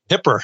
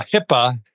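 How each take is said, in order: First: New York accent slip. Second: Said in the usual way. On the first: Real, not acted. Podcast host slips while naming HIPAA, New York accent. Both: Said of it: "that's my old New York accent coming back".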